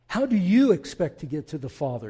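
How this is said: It is said in an aggressive tone.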